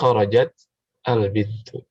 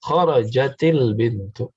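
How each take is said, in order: First: The first word ends without any added linking vowel. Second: The words are joined by an added 'i' vowel.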